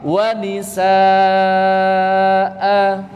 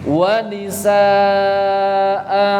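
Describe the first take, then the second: Both takes have the same delivery.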